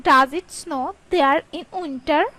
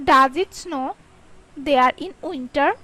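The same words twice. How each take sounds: First: Said in the usual way. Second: Does it snow, pause, there in winter; question in two chunks. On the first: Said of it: "teacher says whole question after chunks". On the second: Shown as a demonstration. Teacher chunks question for learners, paused. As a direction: break the question after snow. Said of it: "teacher splits question for learners".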